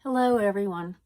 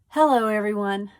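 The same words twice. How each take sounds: First: It is said in a tired, low-energy way. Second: It is said with more energy and liveliness.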